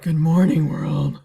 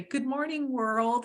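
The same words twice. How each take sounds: First: Loud, low campy drag queen greeting. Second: High gleeful good morning. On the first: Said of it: "my drag queen voice in the morning". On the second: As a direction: greet the day with glee. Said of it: "all gleefully and say". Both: Retold or imitated.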